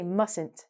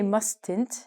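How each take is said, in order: First: The T sound is left out of the word. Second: The T sound is pronounced in the word. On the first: The speaker calls it right. "the T is actually silent" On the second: The speaker calls it wrong. "We do not say mustn't"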